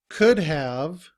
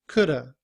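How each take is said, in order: First: Both words are said fully and separately. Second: The words blend into one reduced word.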